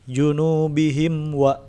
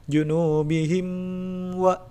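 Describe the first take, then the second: First: Junubihim wa with a clear, unheld mim; slow chant, mim crisp. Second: Junubihim wa with the mim held; mock-wrong nasal hold; wrong take. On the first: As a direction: izhar recitation. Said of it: "Dibaca jelas mimnya". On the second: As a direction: incorrect recitation. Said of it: "Tidak seperti itu". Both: Shown as a demonstration.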